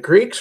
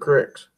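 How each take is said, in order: First: The vowel is a long 'ee' sound. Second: The vowel is a short 'i' sound. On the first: "Were they creeks or cricks?" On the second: "Were they creeks or cricks?"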